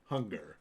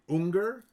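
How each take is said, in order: First: The name begins with an H sound. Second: The name begins with a vowel sound. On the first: "I prefer to pronounce it Hunger" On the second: "maybe like that's like Saint Unger"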